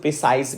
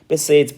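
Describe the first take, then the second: First: The second syllable has an 'eye' vowel. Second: The second syllable has an 'eh' vowel. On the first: The speaker calls it wrong. "बहुत लोग इसको प्रिसाइज भी पढ़ता है" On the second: The speaker calls it right. "प्रिसेज पढ़ते हैं इसको"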